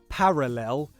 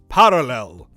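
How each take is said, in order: First: The R is a smooth, ordinary English R. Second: The R is a quick tongue tap. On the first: "pronounce that R like a R" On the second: "characteristic of upper R P is that alveolar tap"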